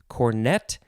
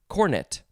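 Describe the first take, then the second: First: The stress is on the second syllable. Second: The stress is on the first syllable. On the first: "first form" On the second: "The British usually will say cornet, emphasizing the first syllable"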